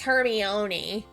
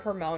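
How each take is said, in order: First: The 'i' sound in the middle is pronounced. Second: The 'i' sound in the middle is left out. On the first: The speaker calls it right. "no, it's Hermione" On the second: The speaker calls it wrong. "I was wrong because I kept calling her Hermione. I just thought that the I was silent"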